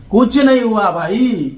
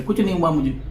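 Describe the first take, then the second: First: कुछ नहीं हुआ भाई said slowly, louder and higher, leaning on नहीं; emphatic repeat. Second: Said in the usual way. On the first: Real, not acted. Vlogger scoffing at the police complaint, slow loud emphatic repeat. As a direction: stretch out नहीं, drawn out and loud, dismissing it.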